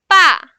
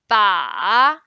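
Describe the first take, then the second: First: The pitch falls sharply from high to low. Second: The pitch dips low, then rises. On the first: It means that. "the fourth one" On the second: It means the target. "the third one"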